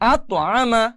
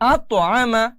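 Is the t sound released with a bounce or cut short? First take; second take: bounce; bounce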